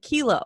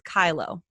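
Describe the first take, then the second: First: The first vowel sounds like 'key'. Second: The first vowel sounds like 'eye'. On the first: The speaker calls it wrong. "a lot of people pronounce it kilo" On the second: The speaker calls it right. "It's Kylo"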